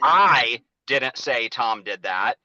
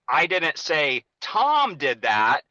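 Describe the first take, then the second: First: The stress falls on the word say. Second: The stress falls on the word Tom.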